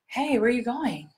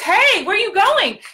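First: It is said quietly, not yelled. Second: It is yelled loudly across the street.

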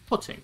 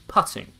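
First: The first vowel is rounded, as in foot. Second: The first vowel is open, as in cup. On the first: "In the north, they're both putting, as in pudding" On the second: "When you're playing golf, that's putting. In the south"

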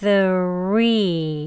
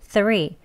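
First: The word is said slowly with each sound separate. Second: The word is said quickly with sounds merged together. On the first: "천천히 발음하시면" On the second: "빨리 발음하시면 이 우소리가 th랑 같이 합쳐져서요"

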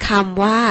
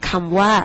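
Both takes have the same delivery.

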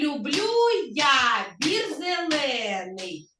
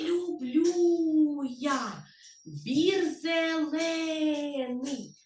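First: It is spoken at normal pace and volume. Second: It is spoken very quietly. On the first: "І у нас є, дивіться, ритм" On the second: "А тепер давайте тихесенько будемо казати"

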